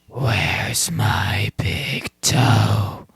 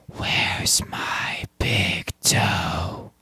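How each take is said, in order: First: It is said somewhat louder. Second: It is said quietly.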